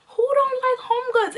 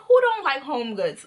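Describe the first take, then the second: First: High-pitched exclaimed question; emphatic rhetorical question. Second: Said in the usual way. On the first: Real, not acted. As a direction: toss it up high and excited.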